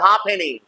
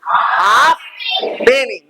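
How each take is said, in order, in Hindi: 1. 'f' ध्वनि silent है। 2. 'f' ध्वनि बोली जाती है। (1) "इसको बोलते" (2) "हाफ पेनी नहीं है"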